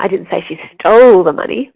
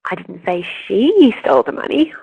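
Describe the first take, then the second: First: The stress falls on the word stole. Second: The stress falls on the word she. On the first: She did something else with it. "but she might have hidden it" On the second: Someone else stole it. "someone else did steal it"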